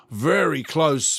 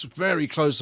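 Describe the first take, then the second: First: Drawn out. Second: Said in the usual way. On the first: Shown as a demonstration.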